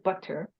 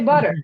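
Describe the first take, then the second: First: The middle consonant is a clear T sound. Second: The middle consonant sounds like a D. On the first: The speaker calls it wrong. "no one says butter" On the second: The speaker calls it right. "we're giving it a D sound"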